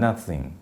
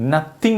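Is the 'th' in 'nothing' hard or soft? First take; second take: soft; hard. First: The 'th' sound is soft and airy. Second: The 'th' sound is a hard stop. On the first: The speaker calls it right. "ആ താ വളരെ soft ആയിട്ട് പറയാം" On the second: The speaker calls it wrong. "നത്തിങ് നത്തിങ് എന്നായി പോയത്"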